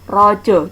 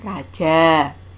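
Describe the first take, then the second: First: The vowels sound like o. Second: The vowels sound like a. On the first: The speaker calls it right. "cara membacanya dibaca o" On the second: The speaker calls it wrong. "bukan dibaca"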